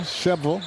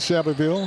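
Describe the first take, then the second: First: The name is squeezed into two syllables. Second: All syllables of the name are clearly pronounced.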